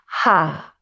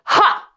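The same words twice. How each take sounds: First: It is a soft, limp sound with no force. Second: It is a sharp, forceful burst from the belly.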